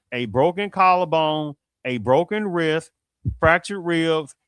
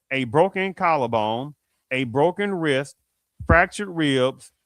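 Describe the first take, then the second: The two takes are said the same way.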